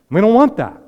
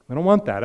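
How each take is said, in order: First: Loud, high insistence; emphatic shout. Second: Said in the usual way. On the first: Real, not acted. Preacher shouting to the congregation, emphatic. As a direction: cry it out to the congregation.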